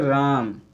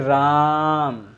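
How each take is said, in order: First: The word is said at normal length. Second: The vowel is drawn out longer.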